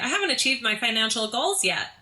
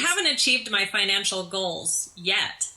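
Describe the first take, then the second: First: The tone sounds bright and cheerful. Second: The tone sounds dark and gloomy. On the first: The speaker calls it right. "That sounds a little bit more cheerful" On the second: The speaker calls it wrong. "I think the first time I was too dark"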